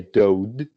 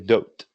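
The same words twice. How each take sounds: First: The word ends with a voiced D sound. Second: The word ends with a voiceless T sound. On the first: The speaker calls it wrong. "you don't say dood" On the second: The speaker calls it right. "you say dood with a T"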